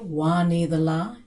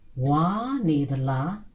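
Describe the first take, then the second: First: It is said without the high tone. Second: It is said with a high tone. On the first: Something yellow. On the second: Something blood.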